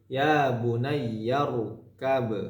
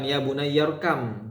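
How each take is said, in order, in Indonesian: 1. Frasa itu berakhir dengan bunyi b. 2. Frasa itu berakhir dengan bunyi m. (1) "Misalkan wakof berarti irkab" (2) "Nah bukan"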